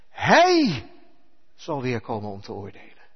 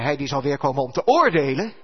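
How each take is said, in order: First: The word hij carries the main stress. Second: The word hij carries no special stress. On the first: The speaker calls it right. "Je moet dat met een goede klemtoon lezen. ... Want die hij, dat is onze lieve Heer" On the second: The speaker calls it wrong. "Je moet niet zeggen"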